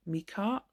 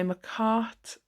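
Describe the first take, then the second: First: Micart said as MEE-kart, rising; unsure pronunciation. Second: Micart said as muh-KART; slow "Micart", first syllable reduced to muh; corrected pronunciation. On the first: Trying out the brand name's pronunciation. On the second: Settling on the brand name's pronunciation. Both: Real, not acted.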